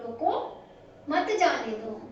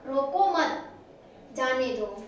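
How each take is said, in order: First: There is a pause right after the first word. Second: There is a pause right after the second word. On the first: Stop him; do not let him go. "हमें यहाँ पे बोल करके थोड़ा stop हुए हैं" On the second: Do not stop him; let him go. "अल्पविराम अगर रोको मत यहाँ पे लगा दिया"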